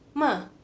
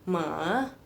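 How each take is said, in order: First: It is said with the fourth tone. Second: It is said with the third tone. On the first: "nada keempat" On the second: "nada ketiga... Jadi turun dulu terus naik"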